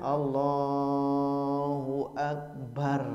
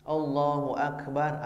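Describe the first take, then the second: First: Allah is drawn out noticeably long. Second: Allah is said short, without lengthening.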